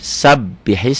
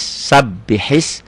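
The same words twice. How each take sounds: First: Said in the usual way. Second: Slow sabihis with the b clearly held double; doubled b. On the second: Shown as a demonstration. Teacher stresses the doubled b for students. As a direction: make the b in sabihis felt. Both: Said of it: "B-nya berasa".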